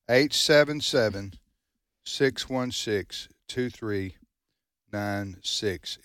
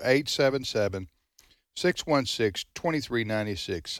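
First: The number is said slowly. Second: The number is said at normal speed.

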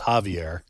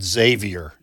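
First: The name begins with an H sound. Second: The name begins with a Z sound. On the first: The speaker calls it right. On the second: The speaker calls it wrong. "I did pronounce his first name incorrectly and said Xavier"

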